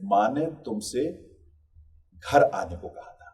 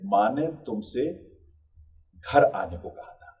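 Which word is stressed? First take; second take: घर; घर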